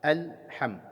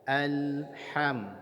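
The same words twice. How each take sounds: First: The L sound is bounced off sharply. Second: The L sound flows on slightly. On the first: The speaker calls it wrong. "tidak uh, pas kalau dibaca alham" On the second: The speaker calls it right. "Alirkan bunyi lamnya sedikit saja"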